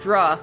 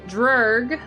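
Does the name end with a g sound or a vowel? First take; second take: vowel; g sound. First: The name ends on a vowel, no g. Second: The name ends with a hard g sound. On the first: The speaker calls it right. "It's Druh. I'm pretty sure is how you're supposed to say it" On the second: The speaker calls it wrong. "I say this wrong"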